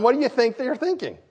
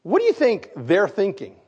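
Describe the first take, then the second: First: Higher, pushier repeat of the question; coaxing the congregation to answer; pressing the question. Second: Said in the usual way. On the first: Shown as a demonstration. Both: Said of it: "Now, come on".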